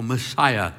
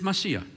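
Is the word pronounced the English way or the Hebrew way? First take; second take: English; Hebrew. First: The word is said with an English pronunciation. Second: The word is said with a Hebrew pronunciation. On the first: "the way we say it" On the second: "in the Hebrew is Messiah"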